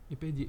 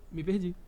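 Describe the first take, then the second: First: Lost track, muttered. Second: Lost track. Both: Real, not acted.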